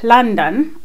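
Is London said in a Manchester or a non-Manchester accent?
non-Manchester. Said in an accent other than the speaker's own.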